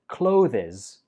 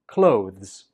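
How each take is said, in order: First: The word ends in a fuller final syllable. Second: The word ends in a weak z sound. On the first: The speaker calls it wrong. "A lot of students pronounce this as clothes, but that's incorrect" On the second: The speaker calls it right. "The last syllable is a weak z"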